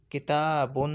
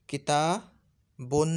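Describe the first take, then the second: First: किताबुन at normal speed, final -un still clear; nunation repeated. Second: किताबुन drawn out very slowly, final -un clearly sounded; nunation demo. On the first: Teacher repeating the word at normal speed. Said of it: "गौर करो तो इसका तलफ़ुज़ यूँ बन रहा है". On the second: Teacher showing how tanween is pronounced, slow. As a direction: stretch the ending so students hear it. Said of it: "जैसे मिसाल के तौर पर". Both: Shown as a demonstration.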